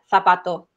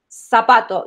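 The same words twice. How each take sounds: First: The z is said like English th. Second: The z is said like an s.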